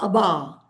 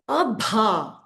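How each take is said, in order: First: The middle consonant is said without a breathy puff. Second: The middle consonant is said with a breathy puff. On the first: The speaker calls it wrong. "Abba would have been Alpa Prana" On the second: The speaker calls it right. "Abha would have been Mahaprana"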